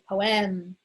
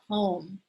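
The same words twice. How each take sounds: First: The stress is on the second syllable. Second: The stress is on the first syllable. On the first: The speaker calls it wrong. "We don't say poem" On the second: The speaker calls it right. "we're stressing P O, not E M"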